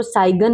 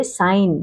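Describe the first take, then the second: First: साइगन with a hard g syllable; mispronunciation. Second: साइन as one syllable, g silent; correct pronunciation. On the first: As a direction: sound the g in साइगन. (ग बोलकर साइगन) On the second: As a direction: go straight to n in साइन. (ग चुप रखकर साइन) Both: Shown as a demonstration. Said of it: "इसको साइगन नहीं पढ़ेंगे".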